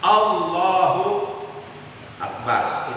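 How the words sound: A short pause separates the two words. "berhenti di antara lafaz Allah dan lafaz akbar dengan berhenti sebentar"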